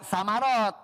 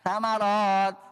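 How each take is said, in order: First: The first consonant is a hissed s sound. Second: The first consonant is a soft th sound. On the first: The speaker calls it wrong. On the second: The speaker calls it right.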